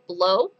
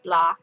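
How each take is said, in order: First: The syllable is said with an 'oh' vowel. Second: The syllable is said with an 'ah' vowel. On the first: The speaker calls it wrong. "many people I'm sure will say blow" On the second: The speaker calls it right. "apparently it's pronounced blah"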